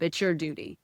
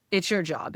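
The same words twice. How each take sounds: First: It's YOUR duty, weight on your; stress on your. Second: It's YOUR job, leaning on your; stress on your. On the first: Telling listeners it is their duty, stress on your. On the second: Telling listeners, as their own job, stress on your. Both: Real, not acted. Urging listeners to curate circle.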